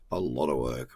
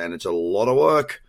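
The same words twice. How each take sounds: First: "A lot of work" dropped low and soft, weight on "lot"; low emphatic echo. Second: Said in the usual way. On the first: Real, not acted. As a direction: lean on "lot" in a low, quiet voice. Repeats phrase for emphasis.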